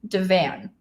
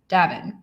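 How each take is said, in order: First: "Devan" said with a flat short a, like "DEV-vann"; first-guess reading. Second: "Davin" said DAV-in, a long open first syllable and a weak second; corrected name. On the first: Reading a viewer's name aloud before being corrected, DEV-van. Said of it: "That's how I would read this". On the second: Repeating the viewer's correction of her name, DAV-in. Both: Shown as a demonstration.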